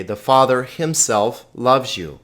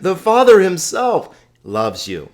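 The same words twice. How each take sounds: First: Said in the usual way. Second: "Father" swung high and loud, then easing off; emphatic stress on Father. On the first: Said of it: "we would smooth that out". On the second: Shown as a demonstration. Teacher shows the emphatic Greek reading, strong stress on "Father". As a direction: hit "Father himself" high, let "loves you" settle. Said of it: "this Father very emphatic".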